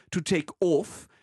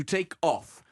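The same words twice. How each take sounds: First: "off" with a closed O, like "ohf"; Queen Elizabeth II. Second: "off" with an open British O; ordinary English "off", vowel open. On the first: Retold or imitated. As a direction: imitate royal "off", vowel narrowed as in French "nôtre". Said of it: "utiliser un O fermé". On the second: Shown as a demonstration. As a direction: say "off" slowly, O wide open. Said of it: "avec un O ouvert".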